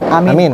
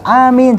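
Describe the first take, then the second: First: The vowels are kept short. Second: The vowels are drawn out long. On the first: It means safe. The speaker calls it wrong. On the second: It is a plea for a prayer to be granted. The speaker calls it right. "harus panjang"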